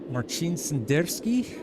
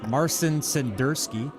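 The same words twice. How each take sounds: First: The name is said with Polish-style pronunciation. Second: The name is said with American-style pronunciation. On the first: "I hope I'm saying that right" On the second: "start pronouncing it the American way"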